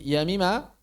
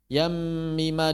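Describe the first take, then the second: First: The M is single and said short. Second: The M is doubled and held long. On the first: The speaker calls it wrong. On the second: The speaker calls it right.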